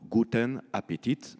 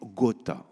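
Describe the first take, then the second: First: The phrase is said fully with every syllable. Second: The phrase is squeezed into two quick syllables. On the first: "c'est tout simplement Guten Appetit" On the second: "le rétrécissement"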